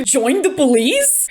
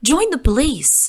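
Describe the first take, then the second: First: Disbelieving "join the police", slowed; incredulous quote. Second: Bad British accent. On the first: Retold or imitated. Vlogger quoting Caitlyn in disbelief, slow. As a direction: quote the line back in disbelief. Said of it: "hard pivots into". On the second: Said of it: "attempt at a British accent".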